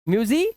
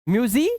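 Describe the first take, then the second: Both takes have the same delivery.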